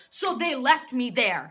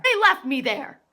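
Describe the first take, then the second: First: Louder, aggrieved emphasis; indignant. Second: Very loud, higher-pitched indignation; outraged repeat. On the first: Real, not acted. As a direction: state the grievance loudly. Indignant retelling of being abandoned. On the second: Acted. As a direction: shout the grievance in disbelief.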